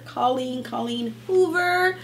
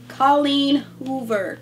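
First: Excited name. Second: "Colleen Hoover" said slowly, stretched out; drawn-out name. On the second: BookTuber announcing the next author, slowly. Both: Shown as a demonstration.

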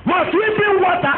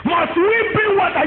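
First: Higher pitched retort leaning on "bring"; angry retort, stress on bring. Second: Higher pitched retort leaning on "we"; angry retort, stress on we. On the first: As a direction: spit it out, hitting "bring" hard. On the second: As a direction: throw it back at them, weight on "we". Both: Retold or imitated. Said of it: "when you are angry, you'll be talking nonsense".

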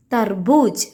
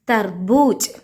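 The two takes are said the same way.

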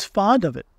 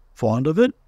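First: Said in the usual way. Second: "Fond of it?" with the pitch rising at the end; questioning echo. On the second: A narrator's reading. Owl echoes it as question.

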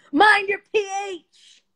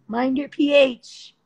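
First: "Mind your P H" much higher in a sassy put-on voice, slow, with MIND stressed; sing-song sass on "Mind your P H". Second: "Mind your P H" slow and loud, leaning on P; slow emphatic advice. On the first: To viewers, a sassy put-on high voice for "Mind your P H". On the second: To viewers, slow emphatic advice on "P H". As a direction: spell out P H slowly, hard. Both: Shown as a demonstration.

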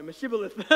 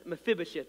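First: Mephibosheth garbled as Meshibolis, with sh for f and s for th; mispronounced name. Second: Mephibosheth said carefully as meh-FIB-o-sheth, with a clear f and a final th; careful pronunciation. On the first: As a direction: stumble through Mephibosheth, blurring the f and the final th. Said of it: "I can't ever say it correctly". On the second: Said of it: "that's how you say it". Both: Shown as a demonstration.

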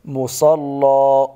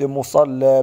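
First: مصلى with a heavy lam, very slow; مصلى with emphatic lam drawn out; correct pronunciation. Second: مصلى with a thin light lam; مصلى with an unthickened lam; wrong pronunciation. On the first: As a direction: say مصلى slowly with a thick dark lam. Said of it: "بل". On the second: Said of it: "أنت رققت اللام". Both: Shown as a demonstration.

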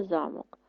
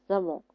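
First: ЗАмок with the first syllable stressed; ZA-mok, front-weighted. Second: ЗаМОК with the last syllable stressed; za-MOK, end-weighted; stress on second syllable. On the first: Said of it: "наголос на перший". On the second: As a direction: put the weight on МОК in замок. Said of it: "наголос на другий склад". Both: Shown as a demonstration.

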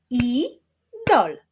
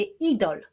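First: "Idol" split as I-dol, louder; two separate beats for "Idol", pause between; syllable by syllable. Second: Said in the usual way. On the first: Shown as a demonstration. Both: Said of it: "Wyklaszczmy sylaby w wyrazie idol".

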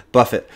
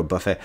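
First: "Buffet" said BUFF-it, ending on a t; buffet with sounded t. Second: "Buffet" said buh-FAY, with a silent t; French-style buffet. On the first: Gamer correcting own slip, "Buffet" said as BUFF-it. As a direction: say "Buffet" to rhyme with "tuffet". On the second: Gamer catching own slip, "Buffet" said as buh-FAY. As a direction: say "Buffet" like the meal, ending in "ay". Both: Shown as a demonstration. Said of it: "there I go, Buffet".

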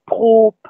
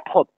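First: "prop" with a long, drawn-out O. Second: "propre" with a short, quick O. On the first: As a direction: stretch the vowel in "prop". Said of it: "le O bref se justifie". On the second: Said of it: "mais on dit propre avec un O". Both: Shown as a demonstration.

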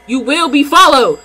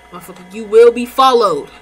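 First: Louder threat. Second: Loud threat. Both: Real, not acted. Threatening in-game thief.

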